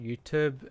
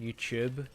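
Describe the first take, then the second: First: It is said with the American vowel. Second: It is said with the speaker's own vowel. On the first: "the Americans call it YouTube" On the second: "we call it YouTube"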